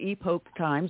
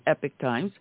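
First: Epoch is said with the Greek-style pronunciation. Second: Epoch is said like the word epic. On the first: "the Greek version" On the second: "or as we say, the Epic Times"

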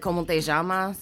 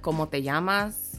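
First: The 'll' is a sh-like sound. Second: The 'll' is a y-like sound. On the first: This is how people from Argentina say it. "they make a ja, where it's normally, like, a Y sound" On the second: This is how it is normally said elsewhere. "Instead of"

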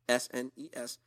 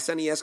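First: The name is spelled out letter by letter. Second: The name is said as one word. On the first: The speaker calls it wrong. "not SNES, S-N-E-S, you monster" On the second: The speaker calls it right. "that's the correct way to say it"

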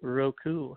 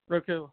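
First: It is said slowly. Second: It is said at normal speed.

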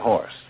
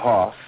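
First: It is said in a New York accent, with r. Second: It is said in a Georgia accent, without r. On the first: "in New York, you say horse" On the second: "if you were in Georgia, you'd say hoss"

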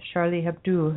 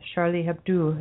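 First: The name is said with a French pronunciation. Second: The same.

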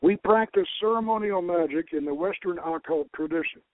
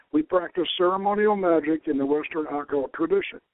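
Both takes have the same delivery.

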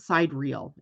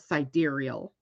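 First: It sounds like the two words side and real. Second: It does not sound like side and real. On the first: The speaker calls it wrong. "why not pronounce it side real" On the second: The speaker calls it right. "It's actually SIDEREAL"

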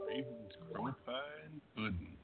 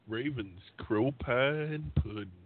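First: It is said quietly. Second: It is said loudly.

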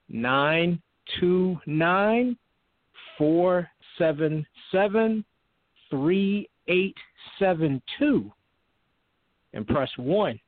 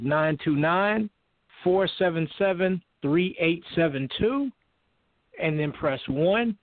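First: The number is said more slowly. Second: The number is said at normal speed.

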